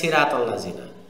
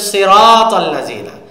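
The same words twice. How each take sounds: First: The first s sound is light and thin. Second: The first s sound is heavy and thick. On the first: The speaker calls it wrong. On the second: The speaker calls it right.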